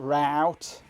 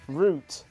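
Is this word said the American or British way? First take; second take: American; British. First: The word is said the American way. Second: The word is said the British way. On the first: The speaker calls it wrong. "Not route" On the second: The speaker calls it right. "We speak real English over here"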